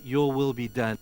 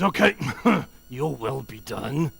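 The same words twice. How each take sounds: First: Said in the usual way. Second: Laughing, offhand resigned okay; said with a dismissive laugh; grudging. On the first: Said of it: "intonation is important here". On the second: Shown as a demonstration. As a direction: shrug it off with a laugh. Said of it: "The first way to say is".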